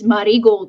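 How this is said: The name is pronounced with Japanese sounds. It is how the company itself says it. "the pronunciation they use is the Japanese pronunciation"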